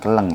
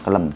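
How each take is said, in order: First: The word ends with an ng sound. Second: The word ends with an m sound. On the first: The speaker calls it wrong. "Bukan keleng ya" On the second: The speaker calls it right. "Kelem sebenarnya yang betul ya"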